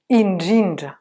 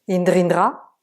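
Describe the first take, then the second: First: The cluster is said with a soft dj sound. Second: The cluster is said with a French-style dr sound. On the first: The speaker calls it right. "Et le son N D R, c'est ndj" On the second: The speaker calls it wrong. "C'est pas indrindra. Indrindra, non. On ne lit pas du français ici"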